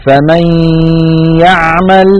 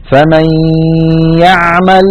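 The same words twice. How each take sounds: First: فمن يعمل again with nasalised merged nun; "famay-ya'mal" with the hum held; idgham with ghunna. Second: فمن يعمل recited with the nun merged into ي and nasalised; "famay-ya'mal" with the nasal hum kept; idgham with ghunna. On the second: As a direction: chant فمن يعمل with a held nasal before يعمل. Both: Shown as a demonstration. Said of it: "لاحظوا بقاء الغنة".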